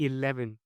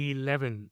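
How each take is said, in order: Both takes have the same delivery.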